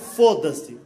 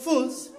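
First: The vowels are fully pronounced. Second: The vowels are mostly dropped. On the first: "eles não falam foda-se" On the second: "Eles comem as vogais. ... Eles falam fus"

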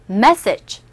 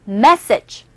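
Both takes have the same delivery.

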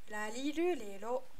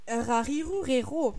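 First: The R is a light sound between R and L. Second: The R is a strong French throat sound. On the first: The speaker calls it right. "en japonais, c'est un mélange entre le R et le L" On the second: The speaker calls it wrong. "moi je viens du Nord, donc j'accentue bien ça, le R"

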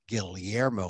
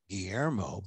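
First: The name is said with a Filipino pronunciation. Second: The name is said with a Spanish pronunciation. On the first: "I pronounce it the Filipino way" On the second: "and not"

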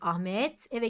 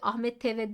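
First: The two words are kept apart without linking. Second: The final t runs into the next vowel. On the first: The speaker calls it right. "Özneden sonra virgül getirilmiş" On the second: The speaker calls it wrong.

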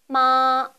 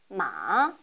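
First: The pitch stays high and level throughout. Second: The pitch dips low, then rises slightly. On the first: "처음부터 끝까지 높은 음을 유지합니다" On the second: "약간 낮은 음에서 가장 낮은 위치까지 내렸다가 살짝 올리시면 됩니다"

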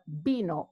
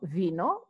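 First: The word begins with a B sound. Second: The word begins with a V sound. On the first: The speaker calls it right. "the V and the B are the same. They're pronounced B" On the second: The speaker calls it wrong. "not vino"

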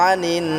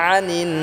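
The two takes are said the same way.

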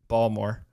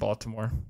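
First: It is said in a local Maryland accent. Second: It is said in a standard accent.

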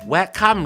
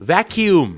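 First: The word ends with a short 'kham' sound. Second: The word ends with a 'kyum' sound. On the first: The speaker calls it wrong. "ชาวไทยออกเสียงอะไรครับแวะค่ำ" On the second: The speaker calls it right. "vacuum นั่นเองครับ"

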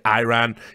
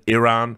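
First: It is said with an American pronunciation. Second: It is said with a non-American pronunciation. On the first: "for an American to say Iran" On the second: "instead of Iran"

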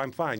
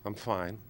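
First: It sounds convincingly cheerful and fine. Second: It sounds unconvincing and upset.

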